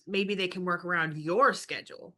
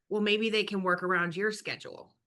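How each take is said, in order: First: The word 'your' is heavily stressed. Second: The word 'your' carries no special stress.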